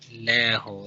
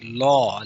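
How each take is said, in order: First: The L is light and thin. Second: The L is heavy and full-mouthed. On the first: The speaker calls it wrong. "like light lam" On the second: The speaker calls it right. "like full mouth"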